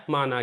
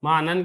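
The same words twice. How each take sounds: First: معنی said as ma'ni, long final -i; Urdu reading ma'ni. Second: معنن with the nunation, ending in -an; Arabic reading ma'nan. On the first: Teacher giving the familiar Urdu form ma'ni. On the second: Teacher offering students the Arabic reading ma'nan. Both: Shown as a demonstration. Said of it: "معنن کہہ لیں یا معنی کہہ لیں".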